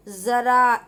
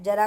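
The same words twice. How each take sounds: First: ज़रा said slowly with a buzzing z, not j; nukta z sound. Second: Said in the usual way. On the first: Shown as a demonstration. Teacher to students, ज़रा said slowly with z. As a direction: stretch ज़रा and start it with z. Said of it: "ऐसी sound आएगी". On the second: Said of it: "लेकिन नुक्ता लगने के बाद ज़रा".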